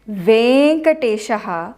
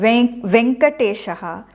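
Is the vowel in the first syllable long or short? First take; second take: long; short. First: The first vowel is held long. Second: The first vowel is said short. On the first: The speaker calls it right. "it is always Venkateshaha" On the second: The speaker calls it wrong. "it is not Venkateshaha in Sanskritam"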